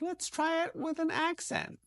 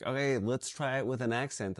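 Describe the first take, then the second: First: Much higher, slow, mocking casting director. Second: Said in the usual way. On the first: Actor mocking a casting director's accent request, high and slow. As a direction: squeak it out like a pushy casting director. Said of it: "They're like". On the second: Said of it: "someone's like".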